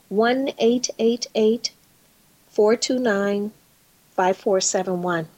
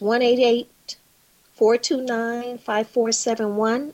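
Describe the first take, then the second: First: The number is said slowly, in groups. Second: The number is said at normal speed.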